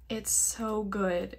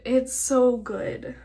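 First: Said in the usual way. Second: Slow, much louder gushing; excited repeat. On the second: Real, not acted. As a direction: say it again with a burst of fan excitement.

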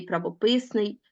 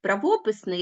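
First: Правописний said as pra-vo-PYS-nyi; правописний with the third syllable strong; stress on third syllable. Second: Правописний said as pra-VO-pys-nyi; правописний with the second syllable strong; stress on second syllable. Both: Shown as a demonstration. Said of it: "слова з подвійним наголошенням".

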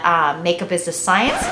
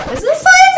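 First: Said in the usual way. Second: Squeaky high voice slip. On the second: Real, not acted. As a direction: voice jumps way up, squeaky. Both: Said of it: "I did it again!".

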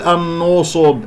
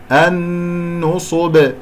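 First: النصب with the n darkened like the ص; wrong heavy ن. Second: النصب very slow, long hummed nn kept light. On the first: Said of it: "لا أقول". (نطق النصب خطأً بتفخيم النون) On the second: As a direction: hold a thin nn in النصب, then a heavy ص. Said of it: "فإذا النون مرققة". (نطق النصب ببطء بنون مرققة وغنة تامة) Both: Shown as a demonstration.

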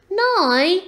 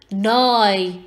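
First: High, loud questioning rise; dismayed question. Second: Loud, firm statement with no question; firm order. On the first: Owlet questions mother's order to go, dismayed and high. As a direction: ask it in high-voiced disbelief. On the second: Mother owl answers her chick's question, firm and final. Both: A narrator's reading.

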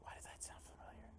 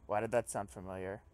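First: Barely audible, voiceless whisper; whispering to self. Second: Said in the usual way. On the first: Real, not acted. Player puzzling over a familiar line, whispering. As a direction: whisper it to yourself.

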